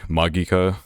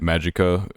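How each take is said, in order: First: It is said with a Japanese pronunciation. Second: It is said with a Western English pronunciation. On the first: "I think in Japanese, Magica would be, like, Magika" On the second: "I will, however, keep calling it Magica"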